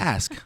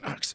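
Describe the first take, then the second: First: The word ends with an s then k sound. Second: The word ends with a k then s sound. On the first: The speaker calls it right. "I'm gonna say it right" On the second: The speaker calls it wrong. "Stop saying axe"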